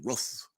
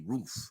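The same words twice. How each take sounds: First: It is said the Baltimore way, like ruff. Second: It is said in standard American pronunciation.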